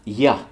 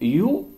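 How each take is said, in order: First: The word is reduced with a short 'uh' vowel. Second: The word is said fully with an 'oo' vowel. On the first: "devient ya" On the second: "you devient ya"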